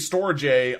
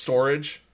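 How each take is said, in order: First: It is said as spelled, 'storj'. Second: It sounds like the ordinary word 'storage'. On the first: This follows the spelling of the name. The speaker calls it right. "it's spelled S T O R J. Therefore, it's going to be Storj" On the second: This is the name as the company intends it. The speaker calls it wrong. "they're trying to have you pronounce it phonetically and say it's storage"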